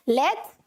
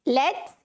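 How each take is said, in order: No difference in how they are said.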